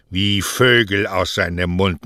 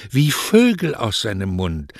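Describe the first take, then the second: First: Mocking echo. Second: "wie Vögel aus seinem Mund" starting high, then sinking; enraptured defence. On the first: Mother echoes her mockingly. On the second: Acted. Lovestruck daughter describes his words to mother, enraptured.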